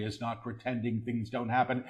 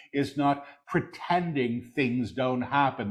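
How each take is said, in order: First: Quick, soft undertone; hushed preview. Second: Deliberate full-voice repeat; measured proclamation. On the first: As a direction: say it softly and rapidly before proclaiming it. Soft take before repeating aloud. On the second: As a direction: proclaim it clearly, word by word. Same words repeated in full voice. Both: Real, not acted.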